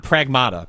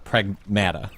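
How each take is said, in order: First: Pragmata said with an "ah" in the middle; the unwanted pronunciation. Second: Pragmata with the short "a" of mat; in-game pronunciation. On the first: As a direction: say Pragmata as prag-MAH-ta. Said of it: "my best to not say Pragmata". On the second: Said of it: "That's how they pronounce it". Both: Shown as a demonstration.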